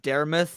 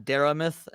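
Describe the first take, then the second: First: The second A vowel is left out. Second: The second A vowel is clearly sounded. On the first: The speaker calls it wrong. "I've been saying Daramith" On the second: The speaker calls it right. "and not Daramith"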